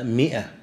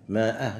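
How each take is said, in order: First: Said in the usual way. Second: مائة read with a long alif, maa'ah; spelling pronunciation. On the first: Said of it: "لكنها تنطق على وزن فئة". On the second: Shown as a demonstration. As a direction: sound out the written alif in مائة. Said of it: "منهم يكتبها بالألف".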